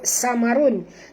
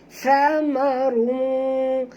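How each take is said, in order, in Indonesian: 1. Kata ini dimulai dengan bunyi s desis biasa. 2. Kata ini dimulai dengan lidah di antara gigi. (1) "jangan sebut samarun. Tak betul" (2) "sentilkan lidah perempuan menyebutnya"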